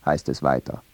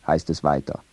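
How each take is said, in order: Both takes have the same delivery.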